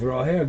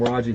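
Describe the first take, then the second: First: The name is said with a Spanish pronunciation. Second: The name is said with an English pronunciation. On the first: This is how the name is really said. The speaker calls it right. "I know the pronunciation is Roher" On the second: This is how foreigners say it. The speaker calls it wrong. "we call him Raja here as gringos"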